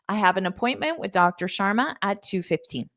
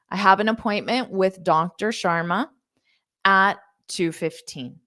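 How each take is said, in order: First: The sentence is spoken fast. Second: The sentence is spoken slowly. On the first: "I'll say it one more time fast" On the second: "so I'll say it slowly"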